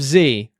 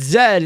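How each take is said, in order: First: The letter is said as 'zee'. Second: The letter is said as 'zed'. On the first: This is the non-British way. "instead of Z" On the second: This is the British English way. "if you speak British English, it's Z"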